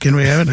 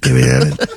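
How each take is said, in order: First: It is said in a higher voice. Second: It is said in a deeper voice.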